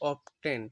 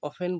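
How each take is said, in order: First: The word is said with a t sound. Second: The word is said without a t sound. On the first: The speaker calls it wrong. "উচ্চারণ করলে হয় অপটেন। এখানে টির উচ্চারণ হবে না" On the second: The speaker calls it right. "টির উচ্চারণ হবে না, অফেন বলতে হবে"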